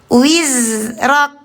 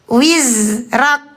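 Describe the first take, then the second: No difference in how they are said.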